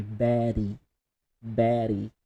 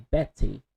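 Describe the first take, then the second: First: Betty with a quick flapped d, "Beddy"; American flapped t. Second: Betty with a clear hard t, "Bet-ty"; crisp t. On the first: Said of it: "change T to D, but very fast". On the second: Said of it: "in standard English". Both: Shown as a demonstration.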